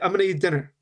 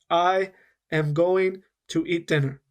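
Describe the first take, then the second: First: It is said fast with words linked. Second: It is said slowly, every sound separate.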